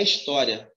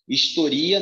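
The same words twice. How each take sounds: First: História said his-TÓ-ria with open o; stress on TÓ. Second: Historia said his-to-RI-a; stress on RI. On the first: Teacher contrasting noun and verb, história stressed on TÓ. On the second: Teacher contrasting verb and noun, historia stressed on RI. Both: Shown as a demonstration. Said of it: "historia não é história".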